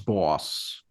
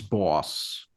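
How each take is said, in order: First: The name is said with a short 'aw' vowel. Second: The name is said with a short 'aw' vowel.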